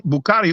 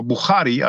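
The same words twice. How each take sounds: First: Said in the usual way. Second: Bukhari with a throaty Arabic kh in place of k; "Bukhari" as in Arabic, the middle consonant a throat fricative; Arabic pronunciation. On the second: Shown as a demonstration. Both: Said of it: "as they say in Arabic".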